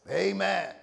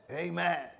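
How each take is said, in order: First: A drawn-out American "Amen"; American accent. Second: Said in the usual way. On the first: Shown as a demonstration. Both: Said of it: "That's my American voice".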